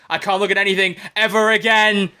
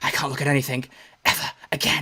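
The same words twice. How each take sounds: First: The line is spoken in a normal voice. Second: The line is spoken in a whisper.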